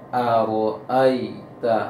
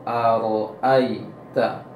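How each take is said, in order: No difference in how they are said.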